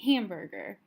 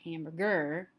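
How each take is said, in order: First: The stress falls on the first syllable. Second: The stress falls on a later syllable. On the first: The speaker calls it right. "So the stress is on this first syllable" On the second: The speaker calls it wrong. "I don't say hamburger"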